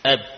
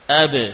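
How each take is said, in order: First: The final b stops dead with closed lips. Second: The final b is released with an echoing bounce. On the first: The letter is heavy to say and hard to identify. The speaker calls it wrong. "Kalau kita biarkan bibir menempel saat kita mengucapkan ba, eb, suara berhenti" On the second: The letter is easy to say and clearly heard. The speaker calls it right. "Mudah ketika kita mendatangkan sifat qalqalah"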